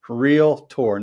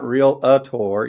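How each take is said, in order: First: It is said with two syllables. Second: It is said with three syllables. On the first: The speaker calls it right. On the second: The speaker calls it wrong. "not real a tour"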